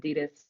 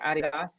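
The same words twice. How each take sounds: First: It is said the American way. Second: It is said the German way.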